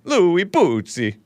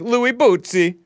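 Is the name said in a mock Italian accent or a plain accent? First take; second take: mock Italian; plain. First: The name is said in a mock Italian accent. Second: The name is said in a plain accent.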